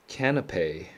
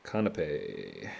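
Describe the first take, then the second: First: Canapé with a flat a as in cat, stress on the last syllable, KAN-a-pay; unsure try at Canapé, short a like cat; first try at canapé. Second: Canapé slow, with an open ah, KAH-na-pay; settled canapé. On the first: Testing how to say a word he never learned, Canapé like cat. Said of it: "I actually never learned how to pronounce this". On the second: Deciding on the word after asking himself, slow Canapé with ah. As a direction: slowly settle on Canapé with the ah of father. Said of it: "is that canapé or canape?". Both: Shown as a demonstration.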